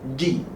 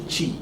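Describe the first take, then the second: First: The consonant is a full stop without airflow. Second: The consonant lets air hiss through. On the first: The speaker calls it right. "we should not allow the air to run" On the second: The speaker calls it wrong. "We shouldn't say chi"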